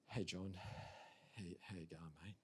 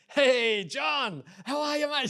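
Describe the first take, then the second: First: It is said with low energy. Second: It is said with high, excited energy.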